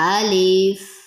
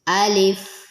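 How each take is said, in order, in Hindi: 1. L के बाद का स्वर छोटा रखा जाता है। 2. L के बाद का स्वर छोटा रखा जाता है।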